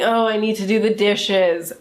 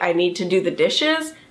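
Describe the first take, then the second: First: It is said with a groaning, complaining tone. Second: It is said in a plain, neutral tone.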